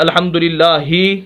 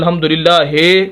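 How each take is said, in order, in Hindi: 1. आख़िरी अक्षर में 'ee' स्वर है। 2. आख़िरी अक्षर में 'ay' स्वर है। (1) "जैसे हम पढ़ते हैं" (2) "ही को हे पढ़ते हैं, तो यही इसे मजहूल कहते हैं, जो कि बहुत ही गलत है"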